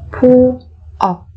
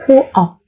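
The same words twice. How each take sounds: First: Slow, separated syllables for learners; careful teacher's slow model. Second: Said in the usual way. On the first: Shown as a demonstration. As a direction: spell it out slowly, beat by beat.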